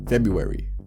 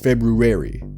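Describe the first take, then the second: First: The R after 'Feb' is left out. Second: The R after 'Feb' is clearly pronounced. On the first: The speaker calls it wrong. "not February. ... you already forgot a letter" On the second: The speaker calls it right. "It's February"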